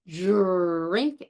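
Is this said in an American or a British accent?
American. The word starts with an affricated j-like d-r. "in standard American English, we say drink as an affricate"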